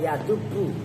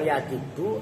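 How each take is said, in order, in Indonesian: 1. Vokal setelah d adalah u. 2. Vokal setelah d adalah i.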